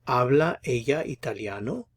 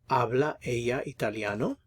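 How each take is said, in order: The two takes are said the same way.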